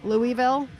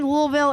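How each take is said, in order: First: It is said with a general non-Southern pronunciation. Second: It is said with a local Southern pronunciation. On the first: It is how outsiders say the name. "those of us who have no business having some sort of Southern accent, we say Louisville" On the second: It is how locals say the name. "is it only Louisville if you're from around here?"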